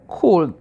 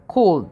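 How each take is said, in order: First: Could. said alone as "kud", silent L; pronunciation of could. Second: Could said as "kud", silent L, short U; could with no L sound, like "kud"; pronunciation of could. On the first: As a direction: model Could. clearly as "kud". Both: Shown as a demonstration. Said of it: "Remember the pronunciation of this word".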